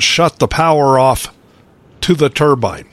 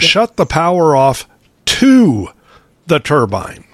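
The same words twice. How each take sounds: First: The phrase is said with plain, even stress. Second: One word in the phrase is strongly emphasized.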